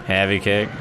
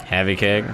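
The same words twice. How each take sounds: The two takes are said the same way.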